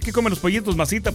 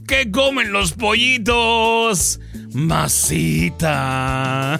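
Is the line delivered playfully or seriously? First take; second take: seriously; playfully. First: It is said seriously, without a playful pause. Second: It is said playfully, pausing before the last word. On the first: It is meant as a sincere advance. The speaker calls it wrong. "si lo dices en serio" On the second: It is a joking, lighthearted flirtation. The speaker calls it right. "Es piropo relajado, ... es juguetón ... con pausa antes del masita"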